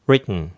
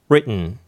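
The two takes are said the same way.

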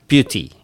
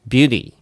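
First: The t is pronounced as a clear t. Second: The t is a quick flap like d. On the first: "美しさを表すbeauty" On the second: "これがbeauty みたいな感じになります。リなのかd なのかよくわからないようなそんな音"

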